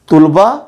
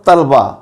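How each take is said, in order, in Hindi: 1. दो अक्षर, पहले में u स्वर। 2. दो अक्षर, पहले में a स्वर। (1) "तोए के ऊपर पेश, लाम के ऊपर जज्म" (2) "तोए के ऊपर ज़बर और लाम के ऊपर जज्म"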